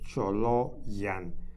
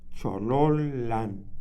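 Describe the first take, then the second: First: The double L sounds like a Y. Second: The double L sounds like a long L. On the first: The speaker calls it wrong. "como en español dijéramos Choloyan" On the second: The speaker calls it right. "como una L alargada que hay que pronunciar"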